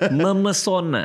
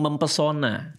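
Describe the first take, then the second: First: The p sound is dropped after mem. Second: The p sound is kept after mem. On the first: The speaker calls it right. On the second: The speaker calls it wrong.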